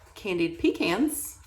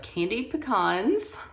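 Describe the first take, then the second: First: Pecans is pronounced the way East Coasters say it. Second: Pecans is pronounced the way Texans say it. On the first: "for my East Coast friends" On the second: "for my Texas people"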